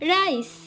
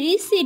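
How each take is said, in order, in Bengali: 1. এটি একটি সিলেবলে বলা হয়, যেমন 'rice'। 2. এটি দুটি সিলেবলে বলা হয়, যেমন 'ree-see'। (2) "ওটা রিসি না"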